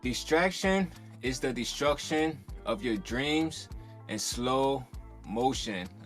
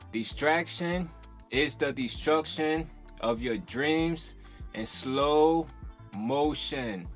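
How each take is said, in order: First: It is said in a calm, plain way. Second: It is said enthusiastically, imitating the pastor.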